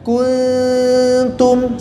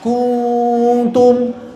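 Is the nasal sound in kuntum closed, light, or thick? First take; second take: light; thick. First: The nasal is light, the tongue not touching. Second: Rounded lips make the nasal sound thick. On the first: The speaker calls it right. "jadi lidahnya jangan nempel" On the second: The speaker calls it wrong. "ku monyong terus, akhirnya tebal"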